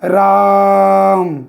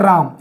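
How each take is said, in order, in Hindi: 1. स्वर पुकार की तरह लंबा खींचा गया है। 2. स्वर सामान्य लंबाई में बोला गया है।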